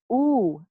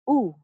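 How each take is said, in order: First: OO held long, as in food; long U sound. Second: OO short, as in book; short U sound. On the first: Teacher demonstrating the long U for students, long OO. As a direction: draw OO out as a long vowel. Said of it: "we also have the long U". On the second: Teacher demonstrating the short U for students, short OO. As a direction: keep OO brief, like the vowel in should. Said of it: "we also have the short U". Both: Shown as a demonstration.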